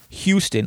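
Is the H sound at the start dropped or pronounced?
pronounced. The word starts with a clear H sound. This is how others outside Jersey say it. "we don't say Houston"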